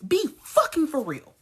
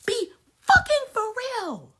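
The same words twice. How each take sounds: First: Said in the usual way. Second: Much higher and louder yell; shouted repeat. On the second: Real, not acted. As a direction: yell it the second time. Repeated rant line.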